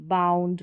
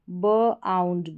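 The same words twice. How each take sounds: First: Said in the usual way. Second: बाउंड slowly broken as "buh - aund"; split into sounds. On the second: Shown as a demonstration. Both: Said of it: "इसका उच्चारण आउंड करके".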